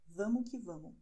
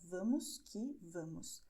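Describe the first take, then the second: First: The words are reduced and run together casually. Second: Every word is pronounced fully and carefully. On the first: The speaker calls it right. "We would say vamos que vamos" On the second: The speaker calls it wrong. "The words are vamos que vamos, but nobody would uh, express it this way"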